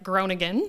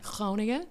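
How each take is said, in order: First: It starts with a hard English G. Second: It starts with a guttural throaty G. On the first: The speaker calls it wrong. "the Canadian way would be like" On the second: The speaker calls it right. "a very uh, guttural G sound"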